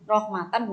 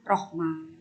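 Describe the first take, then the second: First: The word ends with a full t syllable. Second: The word ends with a breathy h sound. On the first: The reader continues without stopping. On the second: The reader stops on this word.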